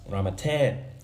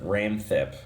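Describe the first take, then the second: First: The name has three syllables, with a middle vowel. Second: The name has two syllables, without a middle vowel. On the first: This is how the name sounds in Thai. The speaker calls it right. "in Thai, it's Ramatep" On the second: The spelling was read by someone who doesn't know Thai. The speaker calls it wrong. "in the trailer, they pronounce it Ramthep, which sounds stupid to me"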